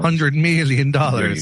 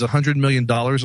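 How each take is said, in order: First: It is said in a dramatic, put-on, mocking voice. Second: It is said in a plain, ordinary reading voice. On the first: The speaker calls it right. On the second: The speaker calls it wrong.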